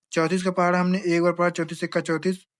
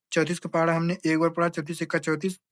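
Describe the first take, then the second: The two takes are said the same way.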